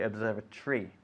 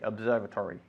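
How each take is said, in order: First: The ending is squeezed to sound like 'tree'. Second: The ending keeps a full 'tor' syllable. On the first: "We say observatory" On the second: "like they say observatory"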